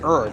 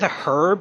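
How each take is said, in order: First: The word begins with no h sound. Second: The word begins with an audible h sound. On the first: "like the H is silent" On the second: "so he said herb"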